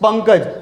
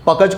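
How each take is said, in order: First: The first syllable has a nasal sound. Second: The first syllable has no nasal sound. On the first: The speaker calls it right. "શું કહીએ છીએ આપણે?" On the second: The speaker calls it wrong. "કહો છો તમે? નથી કહેતા ને?"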